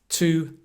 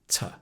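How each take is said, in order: First: The word has a full, clear vowel. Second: The word has a short, reduced vowel. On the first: "a weak form and a strong form" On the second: "a weak form and a strong form"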